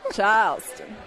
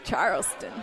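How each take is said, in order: First: Charleston drawl with the R dropped; Charleston accent. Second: Said in the usual way. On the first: Retold or imitated. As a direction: say "Charleston" in an old Southern accent. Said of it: "Sounds like Charleston".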